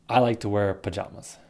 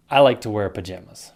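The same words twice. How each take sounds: First: Pajamas with broad ah; "pajamas" said pa-JAH-mas. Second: Pajamas with a as in jam; short a in "pajamas". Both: Shown as a demonstration. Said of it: "two ways".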